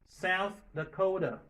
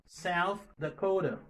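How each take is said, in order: Both takes have the same delivery.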